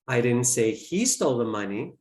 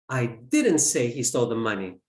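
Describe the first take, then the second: First: The word 'he' is stressed. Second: The word 'say' is stressed. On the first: Someone else took it. "I implied that someone else did" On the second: It was implied, not said. "I implied it"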